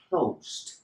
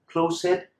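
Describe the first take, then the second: First: The ending joins the verb with no extra syllable. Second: The ending is said as a separate extra syllable. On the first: The speaker calls it right. "eliminate the E and it will sound like closed" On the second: The speaker calls it wrong. "it sounds horrible"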